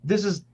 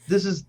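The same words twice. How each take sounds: The two takes are said the same way.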